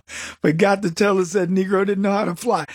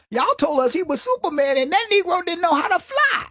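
First: Said in the usual way. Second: Higher, punchy comic delivery of the line; Cat Williams impression. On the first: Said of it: "But he used a different word". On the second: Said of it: "He said".

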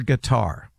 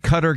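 First: Qatar as "kuh-TAR", stressed on the last syllable; preferred pronunciation. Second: Qatar as "CUT-er", stressed on the first syllable; old pronunciation. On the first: Sportscaster wrestling with country names, preferred pronunciation. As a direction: say Qatar like "guitar". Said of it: "They want it Qatar". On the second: Sportscaster wrestling with country names, old pronunciation. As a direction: say Qatar to rhyme with "butter". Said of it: "I thought it was Qatar". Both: Shown as a demonstration.

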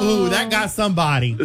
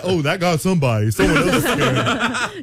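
First: Lightly mimicked moviegoers reacting; a mild imitation of the amused crowd; onlookers' reaction. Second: Lightly feigned nonchalance through amusement; playing it off. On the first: Moviegoers react to the screamer, lightly imitated amusement. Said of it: "They were like". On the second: Screamer blames someone else in the theater, mock casual. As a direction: pretend somebody else was the screamer. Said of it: "Or play it".

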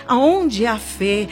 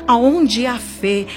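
No difference in how they are said.

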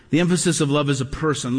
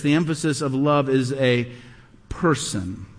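First: Said in the usual way. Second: A pause before "person", then "person" dropped very low; dramatic pause. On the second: Acted. Preacher stressing that love is a person, with a dramatic pause. Preacher building to key point.

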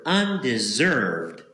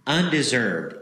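First: Undeserved said slowly, each syllable weighted; emphasis on undeserved. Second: Said in the usual way. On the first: Shown as a demonstration. Preacher to congregation, stressing undeserved slowly. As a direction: lean hard into undeserved, drawn out. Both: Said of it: "emphasis on that word".

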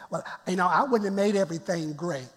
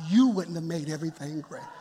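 First: A hint of a fussy church member, softer; mock complaining member. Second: Dry agreement with a laugh in it; laughing comeback. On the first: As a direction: lightly mimic a picky critic. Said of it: "just don't say". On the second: Real, not acted. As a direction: turn the complaint back with a chuckle. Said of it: "You're right".

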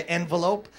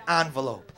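First: "envelope" with first syllable EN, as in "pen"; EN-velope pronunciation. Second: "envelope" with first syllable ON; ON-velope pronunciation. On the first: Comic contrasting how people say "envelope", with an EN start. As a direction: say "envelope" as EN-vuh-lope. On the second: Comic contrasting how people say "envelope", with an ON start. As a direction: say "envelope" as ON-vuh-lope. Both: Shown as a demonstration. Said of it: "Sometimes it's just pronunciation".

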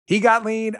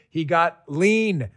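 First: "He got lean" higher and louder, punching "got"; excited repeat. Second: "He got lean" drawn out slowly, falling at the end on "lean"; slow down and land "lean"; slow, deliberate "He got lean"; slow punchline. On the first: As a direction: hype it up the second time. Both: Shown as a demonstration. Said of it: "You know what he did".

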